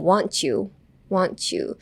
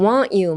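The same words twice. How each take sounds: First: "want you" blended into "wan-chew"; linked "want you". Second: "want you" as two distinct words; separated "want you". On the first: Teacher shows the natural link, "want you" as "wan-chew". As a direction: turn t plus y in "want you" into ch. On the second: Teacher gives the spelled-out form, "want you" said separately. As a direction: keep the t and y of "want you" apart. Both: Shown as a demonstration. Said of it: "chewになります".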